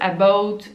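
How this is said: The word is said with a Canadian accent. "les Canadiens anglais, vous savez, ils disent"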